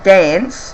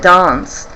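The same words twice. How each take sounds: First: It is said in a broad, bogan Australian accent. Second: It is said in a posh, affected accent.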